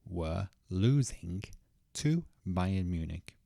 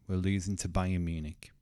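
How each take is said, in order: First: Each word is said fully and separately. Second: The final g drops and 'to' is reduced. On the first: The speaker calls it wrong. "let me say these words stressed" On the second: The speaker calls it right. "we can cut the g of losing, and we can also pronounce to as t"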